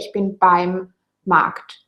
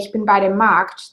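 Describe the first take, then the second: First: Bei and dem are merged into one syllable. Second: Bei and dem are said as two full words. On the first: The speaker calls it right. "they would say" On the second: The speaker calls it wrong. "they would usually not say"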